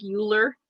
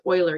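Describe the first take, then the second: First: Euler said as YOO-ler; spelling pronunciation. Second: Euler said as OY-ler; correct pronunciation. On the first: Teacher showing how the name looks, Euler misread as YOO-ler. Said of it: "it's pronounced Euler, even though it's spelled". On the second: Teacher correcting the mathematician's name, Euler pronounced OY-ler. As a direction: say Euler with an opening "oy" sound. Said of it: "it's pronounced Euler". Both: Shown as a demonstration.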